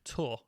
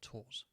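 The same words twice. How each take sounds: First: The word ends without an S sound. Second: The word ends with an S sound. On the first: The speaker calls it right. "To Tours, ... You don't pronounce the S" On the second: The speaker calls it wrong. "not Tours"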